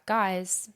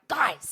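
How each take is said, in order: First: It is said in a relaxed, friendly way. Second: It is called out urgently and sharply.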